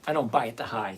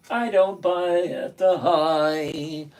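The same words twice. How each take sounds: First: Said in the usual way. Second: Slow, drawn-out words; slow emphatic repeat. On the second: Real, not acted. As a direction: spell out a firm rule slowly, word by word. Repeats the rule slowly for emphasis.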